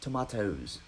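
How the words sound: It is said imitating another speaker's accent.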